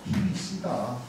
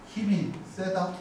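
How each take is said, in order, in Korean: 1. 이 동사는 고모음 'i'예요. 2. 이 동사는 중모음 'e'예요.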